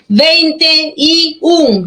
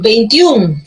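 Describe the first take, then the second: First: "Veinte y un" slowly, each word set apart; three separate words. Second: Said in the usual way. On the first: Shown as a demonstration. ("Veinte y un", tres palabras separadas y lentas) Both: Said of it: "Son tres palabras".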